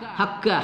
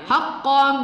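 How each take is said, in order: First: The middle consonant is a plain front k. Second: The middle consonant is deep at the tongue's back. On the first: The speaker calls it wrong. "jangan kita baca hakka" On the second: The speaker calls it right. "qaf pada pangkal lidah"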